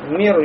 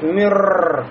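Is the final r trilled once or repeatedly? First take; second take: once; repeatedly. First: The final r is trilled a single time. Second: The final r is trilled several times. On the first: The speaker calls it right. "Только один раз, да" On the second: The speaker calls it wrong. "нельзя сказать мирр. Вот это не допускается в арабском языке"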